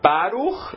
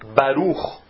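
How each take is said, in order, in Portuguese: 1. A tônica está na primeira sílaba. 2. A tônica está na última sílaba. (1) "não falar Baruch" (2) "Essa palavra é oxítona"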